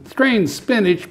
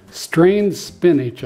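First: "Strained spinach" repeated much higher in mock disgust; disgusted pirate echo. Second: Said in the usual way. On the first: Pirate captain echoing the boy in high mock disgust. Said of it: "Braidbeard said". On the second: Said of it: "I told him".

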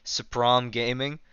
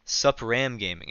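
First: Supram with an open "ah", like suh-PRAHM; slow Supram, second vowel as in "calm"; trial pronunciation. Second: Supram with a short "a", like suh-PRAM; slow Supram, second vowel as in "ham"; trial pronunciation. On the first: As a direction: slowly try Supram as "suh-prahm", rising at the end. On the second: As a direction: slowly try Supram as "suh-pram", falling at the end. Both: Shown as a demonstration. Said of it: "Is it Supram or Supram?".

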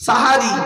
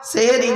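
First: সাহারি loud, with two open a vowels; correct form sahari. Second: সেহরি with an e vowel; wrong form sehri. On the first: Preacher drilling the congregation, loud correct sahari. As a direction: punch out সাহারি as sa-ha-ri. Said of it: "শব্দটা কি বললাম". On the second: Preacher rejecting the common error, sehri with e. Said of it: "সেহরি নয়". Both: Shown as a demonstration.

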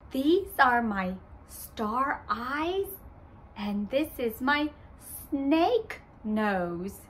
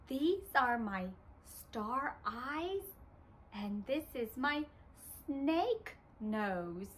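First: Said in the usual way. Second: Put-on much softer, children leading; quieter. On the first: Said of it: "I say". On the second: Shown as a demonstration. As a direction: hush the voice down. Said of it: "let's say it together".

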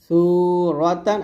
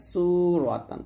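First: সুরতান with unhissed first consonant, rising end; thin tha. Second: সুরতান opened with hissing s, falling end; সুরতান with sharp sibilant start; seen. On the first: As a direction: start সুরতান lightly, tongue at upper teeth. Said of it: "সু বলতে হবে পাতলা করে". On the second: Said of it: "আর সিনটা নিচে লাগাবেন". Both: Shown as a demonstration.

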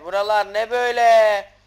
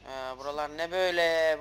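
First: Buralar ne böyle shouted, louder and higher; loud amazed shout. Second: Said in the usual way. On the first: Real, not acted. Gamer shouting at a strange new area. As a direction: blurt it out loud in disbelief. Repeat, much louder second take.

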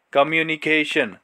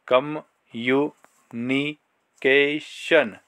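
First: Said in the usual way. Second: Very slow, "कम्युनिकेशन" stretched syllable by syllable. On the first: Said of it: "जोड़ जोड़". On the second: Shown as a demonstration. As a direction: spell the word out in sounds, very slowly. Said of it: "जोड़ जोड़, तोड़ तोड़ के". ("कम्युनिकेशन" बहुत धीरे, अक्षर-अक्षर)

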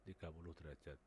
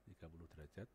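Both takes have the same delivery.

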